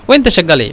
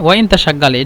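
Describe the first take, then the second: First: The vowel of 'inta' is dropped and merged. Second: The vowel of 'inta' is pronounced separately. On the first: "আলিফটাকে যদি হাইড করে দেন তাহলে হয়" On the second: "এটা মূলত কথা"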